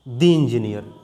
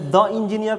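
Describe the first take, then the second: First: The word 'the' is said with a long 'dee'. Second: The word 'the' is said with a short 'duh'. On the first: The speaker calls it right. "पढ़ेंगे यहाँ पे दी engineer" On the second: The speaker calls it wrong. "द engineer पढ़ाएगा या दी engineer पढ़ाएगा"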